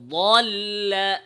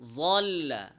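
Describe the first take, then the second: First: The first consonant sounds like an emphatic d. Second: The first consonant sounds like j. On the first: The speaker calls it right. "কি বলতে হবে? দল্লা" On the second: The speaker calls it wrong. "দদকে এর মতো উচ্চারণ করা... ল"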